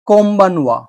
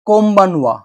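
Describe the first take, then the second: The two takes are said the same way.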